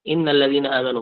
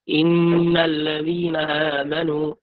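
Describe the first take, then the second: First: The nasal sound on the doubled n is dropped. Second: The nasal sound on the doubled n is held.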